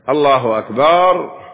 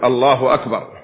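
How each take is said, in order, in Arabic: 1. الحركة بعد الباء ممدودة وطويلة. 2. الحركة بعد الباء تبقى قصيرة. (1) "أن يمد الألف بعد الباء" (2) "فليقول الله أكبر"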